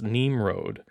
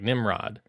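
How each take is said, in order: First: It is said unlike the everyday English word. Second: It sounds like the everyday English word nimrod. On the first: The speaker calls it right. "according to Wikipedia, it is pronounced Nimrod" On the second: The speaker calls it wrong. "as I look at the name, it looks like Nimrod"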